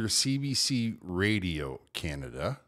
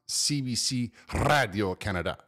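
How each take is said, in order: First: The whole name is pronounced in English. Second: English letters, then the rest pronounced in French. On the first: The speaker calls it right. "it's either CBC Radio Canada" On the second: The speaker calls it wrong. "It's not CBC Radio Canada"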